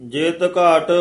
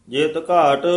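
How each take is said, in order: Both takes have the same delivery.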